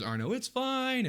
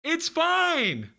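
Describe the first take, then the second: First: High, slow call at restrained volume; Moo calling out. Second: Very high, loud shout across a room; Moo calling out. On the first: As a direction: call from afar without really shouting. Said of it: "Moo calls out to you from the stairs". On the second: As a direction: yell it out in a squeaky, high voice. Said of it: "he calls out to you". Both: Acted.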